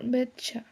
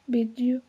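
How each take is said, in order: First: The t and you merge into a ch sound. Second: The t and you are said separately. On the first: "This is reduced to ch or betcha" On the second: "T plus you pronounced"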